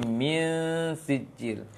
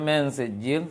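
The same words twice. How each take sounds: First: The vowel in min sounds like i. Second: The vowel in min sounds like e. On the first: The speaker calls it right. "tapi min sijil. Penting kasroh dibaca i" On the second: The speaker calls it wrong. "Jangan min sijil"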